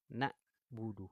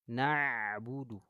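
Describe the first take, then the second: First: The 'ain is pushed through the nose. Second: The 'ain flows clearly from the throat. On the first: The speaker calls it wrong. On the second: The speaker calls it right. "dialirkan di sini"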